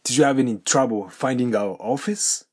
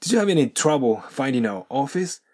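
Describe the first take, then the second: First: "finding our" with the G of finding clearly sounded; slow model question keeping "-ing" full in finding, rising at the end; G pronounced. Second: "finding our" linked as "findin-our" in the question; dropped G. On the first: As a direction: say every G in "finding our office". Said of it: "findingのGをちゃんと発音するパターン". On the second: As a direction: model question with no G on finding, rising at the end. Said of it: "これを飛ばしてNとourがくっついて". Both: Shown as a demonstration.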